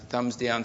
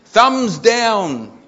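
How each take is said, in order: First: Said in the usual way. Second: Loud, high proclamation; loud mock complaint. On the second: A narrator's reading. Customer reviews chip shop on Facebook, loud mock complaint. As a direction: call it out in mock outrage.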